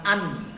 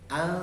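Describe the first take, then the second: First: The n sound is fully clear. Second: The n sound is muted and blurred. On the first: The speaker calls it wrong. "Kalau an itu jelas" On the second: The speaker calls it right. "nunnya samarkan"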